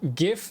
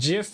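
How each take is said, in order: First: It starts with a hard g sound. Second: It starts with a soft j sound. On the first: "sounds like I'm giving someone a gift" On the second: "people make fun of you for saying it"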